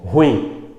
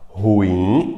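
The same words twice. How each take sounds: First: The word is said as one syllable. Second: The word is said as two syllables. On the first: The speaker calls it wrong. "como se ela fosse monossílaba" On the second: The speaker calls it right. "com a mais forte o in"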